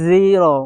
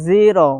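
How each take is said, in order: The two takes are said the same way.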